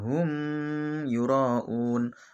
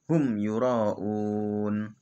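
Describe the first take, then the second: First: The m sound of hum is held long. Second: The m sound of hum is kept short. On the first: The speaker calls it wrong. "tidak boleh dibaca" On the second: The speaker calls it right. "maka harus dibaca"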